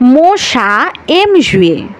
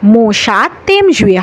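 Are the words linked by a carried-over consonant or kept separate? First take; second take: separate; linked. First: The words stay separate with no linking consonant. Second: A consonant sound links the words together. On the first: The speaker calls it right. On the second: The speaker calls it wrong.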